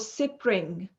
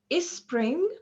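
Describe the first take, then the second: First: An extra vowel is added between s and p. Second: An extra vowel is added before the s. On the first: "nor spe or" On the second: "neither before them nor between them. So we don't say"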